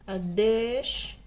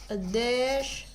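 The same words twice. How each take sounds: No difference in how they are said.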